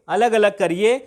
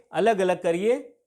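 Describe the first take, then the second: First: Louder, like a crowd chanting अलग अलग करिए; protest demand. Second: अलग अलग करिए said slowly, each word spaced; slow repeat. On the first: Retold or imitated. Teacher voicing protesters demanding separation, louder. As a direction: call out the demand for separate states. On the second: Shown as a demonstration. Teacher repeating the protest slogan slowly for the class. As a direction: spell the demand out slowly for students.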